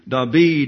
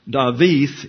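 First: It is said with a Greek pronunciation. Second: It has a w sound and ends in th. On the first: "David in Greek" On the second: "David is pronounced Dawith in Hebrew"

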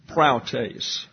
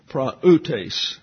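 First: The a and u merge into one ow sound. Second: The a and u are said as separate syllables. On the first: The speaker calls it wrong. "the A-U is a diphthong and gets an ow sound. So you have the tendency when to pronounce it praoutes" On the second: The speaker calls it right. "So it's an independent syllable"

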